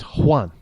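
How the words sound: It is said with a Spanish pronunciation. The speaker comes from south of the border. "if you're coming from south of the border, it's Juan"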